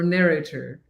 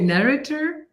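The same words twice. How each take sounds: First: "narrator" with a full middle vowel, NAIR-ay-ter; long-A pronunciation. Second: "Narrator" with a weak middle, NAIR-uh-ter; short-vowel pronunciation. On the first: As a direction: give "narrator" a clear AY in the middle. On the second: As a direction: stress the start of "Narrator" and reduce the middle to uh. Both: Shown as a demonstration. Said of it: "How do you say it?".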